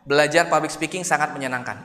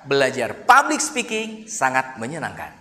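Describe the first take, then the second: First: It is said flat, with no word stressed. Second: The stress falls on public speaking. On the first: "itu flat" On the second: "belajar public speakingnya yang kita tekan"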